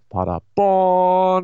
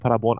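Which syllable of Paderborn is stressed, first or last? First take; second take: last; first. First: The stress is on the last syllable. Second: The stress is on the first syllable. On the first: "nicht Paderborn in the USA" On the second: It names the German town. "Warum betonst du Paderborn auf der ersten Silbe?"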